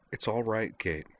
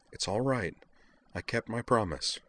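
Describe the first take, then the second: First: Soft, gentle reassurance; softly. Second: Soft reassurance, pitch lifted; softly. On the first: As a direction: soothe a crying friend quietly. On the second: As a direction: gently keep comforting her. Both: A narrator's reading. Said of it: "Utna told her softly".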